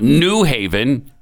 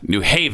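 First: The stress falls on the word New. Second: The stress falls on the word Haven. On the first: The speaker is an outsider. The speaker calls it wrong. "Not New Haven" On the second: The speaker is a local. The speaker calls it right. "It's got to be on Haven"

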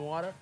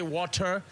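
First: Water is said with an American accent. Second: Water is said with a South African accent. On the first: Local listeners do not understand it. "if you say, yo, can I have some water? They'd be like, huh?" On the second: Local listeners understand it. "So you have to say water"

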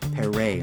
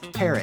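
First: It is said with a French-sounding ending. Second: It sounds like the English word parrot. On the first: The speaker calls it wrong. "like a parrot's French hat" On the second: The speaker calls it right. "like the bird"

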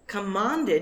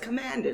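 First: It is said with a British broad vowel. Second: It is said with an American flat vowel. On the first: The speaker calls it wrong. "commanded is not as clear" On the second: The speaker calls it right. "as clear as commanded"

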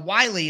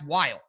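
First: The name is said as two syllables. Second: The name is said as one syllable. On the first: The speaker calls it right. "that that would be the pronunciation" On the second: The speaker calls it wrong. "To me, that's Wile"

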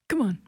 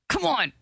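First: It is said weakly, without force. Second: It is said angrily, with force.

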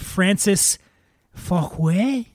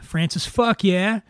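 First: The surname is said as an ordinary name. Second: The surname is said as 'fuck yeah'.

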